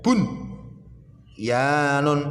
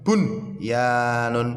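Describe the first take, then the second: First: The word is broken by a pause after bun. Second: The word is said smoothly without a break. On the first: The speaker calls it wrong. "dijeda bun yanun, tidak boleh" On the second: The speaker calls it right. "Bacanya bunyanun"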